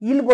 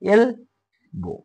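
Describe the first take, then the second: First: The word begins with an 'i' vowel. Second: The word begins with an 'e' vowel. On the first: The speaker calls it wrong. "इल्बो नाही म्हणायचं इन म्हणायचं नाही" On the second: The speaker calls it right. "म्हणजे"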